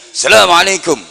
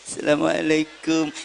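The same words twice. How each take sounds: First: It is said loudly in a high pitch. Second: It is said low and humbly.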